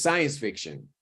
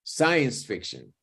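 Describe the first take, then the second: First: The second word is quick, relaxed and reduced. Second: The same.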